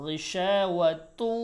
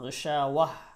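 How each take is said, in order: First: The word ends with a linking 'tun' sound. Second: The word stops short, ending on 'wah'. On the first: The reading continues into the next word. "মিলাইও পড়তে পারেন" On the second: The reader pauses at this point. "আবার এখানে ওয়াকফও করতে পারেন"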